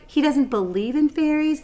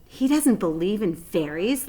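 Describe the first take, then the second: First: Higher, louder disbelieving repeat; incredulous Lady Sue. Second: Said in the usual way. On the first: Acted.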